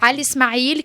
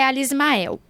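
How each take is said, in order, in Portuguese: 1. O nome é dito do jeito árabe original. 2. O nome é dito do jeito do português brasileiro. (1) "é Ali Ismail" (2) "que aqui no Brasil é Ali Ismael"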